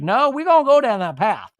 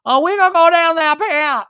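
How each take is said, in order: First: A half-hearted, high, loud Brittany voice; tired, underplayed Brittany impression; a hint of Brittany, not fully committed; Brittany accent, weak. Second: Much higher, louder, full Brittany voice; exaggerated, squeaky reality-star Brittany; Brittany accent. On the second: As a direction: go all in on the Brittany impression. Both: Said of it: "my Brittany accent".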